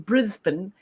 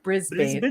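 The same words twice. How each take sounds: First: It is said with an Australian accent. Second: It is said without an Australian accent. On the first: "saying Brisbane" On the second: "instead of Brisbane"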